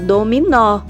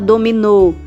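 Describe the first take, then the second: First: The final O is said with an open sound. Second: The final O is said with a closed sound. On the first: The speaker calls it right. "você fala dominó, porque o acento agudo abre o som do O" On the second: The speaker calls it wrong. "Você não fala dominou"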